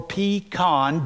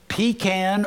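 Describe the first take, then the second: First: "pecan" said as pee-KAHN, with an "ah"; second pronunciation variant. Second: "pecan" said as PEE-can, rhyming with man; first pronunciation variant. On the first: Preacher offering congregation the other way, "pecan" as pee-KAHN. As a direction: say "pecan" slowly as pee-KAHN, open final vowel. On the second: Preacher listing pies to congregation, "pecan" as PEE-can. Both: Shown as a demonstration. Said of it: "doesn't matter how you say it".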